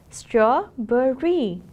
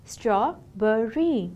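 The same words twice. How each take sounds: First: "Strawberry" stretched slowly and loudly, STRAW-ber-ry; slow syllable demo. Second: Slow, gentler syllable demo. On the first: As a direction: sound out "Strawberry" slowly for the class. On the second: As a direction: repeat "Strawberry" slowly and calmly. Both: Shown as a demonstration. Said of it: "it has three syllables".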